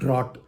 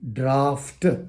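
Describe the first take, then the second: First: The word is said without an f sound. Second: The word is said with an f sound. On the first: The speaker calls it wrong. "It is not drought" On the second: The speaker calls it right. "it is draft. There is F"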